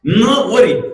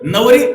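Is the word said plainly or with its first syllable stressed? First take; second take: stressed; plain. First: The first syllable is stressed and split off. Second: The word is said plainly as one unit. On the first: She will not marry him. "इथं नवर जोर दिला" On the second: She is the bride. "नवरी सरळ"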